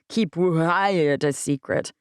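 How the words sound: It is said with a yawn on what.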